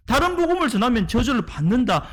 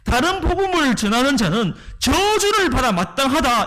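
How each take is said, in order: First: Said in the usual way. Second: Raised, forceful condemnation; Paul's forceful warning, somewhat higher; forceful declaration. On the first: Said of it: "왜 이렇게 강하게 경고를 하는 걸까요". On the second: Retold or imitated. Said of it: "이렇게 강하게 얘기를 하고 있는 거예요".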